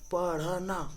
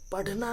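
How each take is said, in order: First: The middle consonant is an aspirated tongue flap. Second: The middle consonant is a hard aspirated stop. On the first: The speaker calls it right. "इसको ढ नहीं ढ़ पढ़ेंगे" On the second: The speaker calls it wrong. "पढ़ना नहीं"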